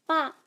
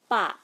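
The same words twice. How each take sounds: First: "ba" pitched up, short; raised tune on "ba"; rising tone. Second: "ba" dropping at the end; falling tone. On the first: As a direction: lift "ba" upward. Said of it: "has a rising tone". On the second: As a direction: let "ba" fall like a backslash. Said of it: "has a falling tone". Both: Shown as a demonstration.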